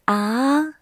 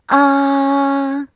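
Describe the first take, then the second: First: The pitch rises from middle to high. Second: The pitch stays high and level. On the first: "The second one is a rising tone" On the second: "The first tone is high and flat"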